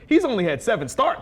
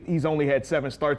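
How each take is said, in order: First: It is said with extra pep and energy. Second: It is said in a plain, flat way.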